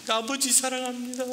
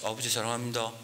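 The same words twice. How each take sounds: First: It is said in a shaking, tearful voice. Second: It is said in a tiny, timid voice.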